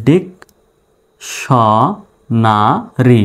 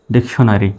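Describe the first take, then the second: First: ডিক স না রি in separate pieces, long pauses between; syllable by syllable. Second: Said in the usual way. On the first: Shown as a demonstration. Teacher spelling out the word for learners, syllable by syllable. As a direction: break dictionary into slow, isolated syllables. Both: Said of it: "dictionary বানান হয়ে গেল".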